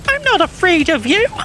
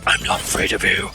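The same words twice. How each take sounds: First: It is said in Cream's high, childlike voice. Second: It is said in a deep, gravelly Batman voice.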